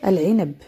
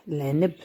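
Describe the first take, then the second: First: العنب as al-'inab, article fully voiced; standard Arabic pronunciation. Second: العنب shortened to l-'neb; Moroccan pronunciation. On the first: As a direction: say "العنب" with every vowel, al-'i-nab. (نطق العنب بالعربية الفصحى) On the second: (نطق العنب بالدارجة المغربية) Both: Shown as a demonstration. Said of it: "باللهجة المغربية".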